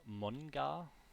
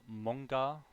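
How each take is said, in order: First: The n and g are pronounced as separate sounds. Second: The n and g merge into one ng sound. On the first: The speaker calls it wrong. "They're not saying manga" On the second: The speaker calls it right. "like a N G together"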